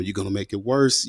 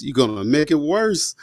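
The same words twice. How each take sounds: First: Said in the usual way. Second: Higher, slow and pleading; desperate plea. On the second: Retold or imitated. Son begging his mom not to confront them, higher and slow. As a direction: beg her slowly, dreading it.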